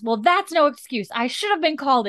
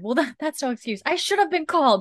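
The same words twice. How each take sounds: First: Higher, louder indignant snap at the nurse. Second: Higher mock-indignant retelling of the snap. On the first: Retold or imitated. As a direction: bite the nurse's head off, imitating the doctor. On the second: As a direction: replay the doctor's outburst, half mocking. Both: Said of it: "so pissed".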